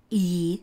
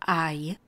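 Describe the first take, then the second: First: I said as Czech long "í", like "ee"; Czech letter name. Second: I said as English "eye"; English letter name. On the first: Teacher names the letter for learners, I as Czech "ee". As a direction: read I the Czech way, "ee". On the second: Teacher shows how it is read, I as English "eye". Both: Shown as a demonstration. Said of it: "se čte anglicky".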